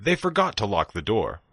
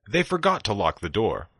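The two takes are said the same way.

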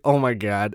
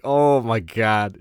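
First: Quick, louder oh my God; short, lightly acted reaction; retold mild dismay. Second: Drawn-out, loud OH my God; slow, emphatic replay of disbelief; retold amazement. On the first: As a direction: imitate a coworker's embarrassed exclamation. Coworker's reaction in retold exchange. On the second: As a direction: stretch it out in mock astonishment. His own amazed reaction, retold.

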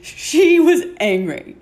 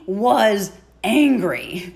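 First: Laughing, pitched higher; amused laugh on the line. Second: Said in the usual way. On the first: Real, not acted. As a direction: laugh through the repeat. Laughing repeat of previous words.

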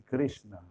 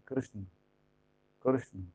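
First: "Krishna" with a full, clear final a; wrong final vowel. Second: "Krishna" with the final a barely sounded; corrected pronunciation. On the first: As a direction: sound the last a of "Krishna" fully. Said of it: "Porque no se dice Krishna". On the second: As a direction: model "Krishna" as KRISH-n', first syllable carrying it. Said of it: "se dice Krishna". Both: Shown as a demonstration.

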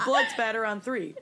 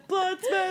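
First: Said in the usual way. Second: High, shouted team chant; team cheer. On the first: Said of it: "Everybody, hands in". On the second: Shown as a demonstration.

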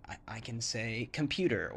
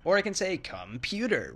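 First: Said in the usual way. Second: Computer said on a higher pitch. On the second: Shown as a demonstration. Showing English intonation does not matter, higher. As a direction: lift the whole word computer up high.

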